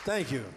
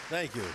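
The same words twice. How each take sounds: The two takes are said the same way.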